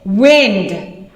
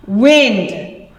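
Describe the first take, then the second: First: "Wind" with a short i, like "win-d"; "Wind" as moving air. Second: "Wind" with a long i, like "wined"; "Wind" as in winding a clock; wind as in turn. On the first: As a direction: say "Wind" to rhyme with "pinned". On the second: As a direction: say "Wind" to rhyme with "find". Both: Shown as a demonstration. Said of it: "pronunciation written underneath it".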